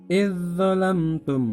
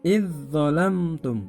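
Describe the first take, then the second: The two takes are said the same way.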